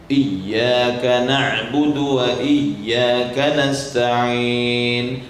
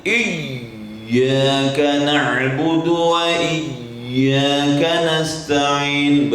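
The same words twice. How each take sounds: First: Said in the usual way. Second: Slow, exaggerated pressure on each letter; too strong, heavy recitation; overdone stress. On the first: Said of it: "normal saja". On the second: Shown as a demonstration. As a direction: overpress the letters as the wrong example. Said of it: "Jangan kuat kali".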